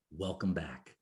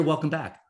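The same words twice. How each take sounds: First: Low, very soft voice from nowhere; hushed otherworldly greeting. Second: Said in the usual way. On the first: Retold or imitated. Unseen voice greets man coming to, low and hushed. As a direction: drop low and hush it like a mysterious voice. Mysterious voice greets him on waking.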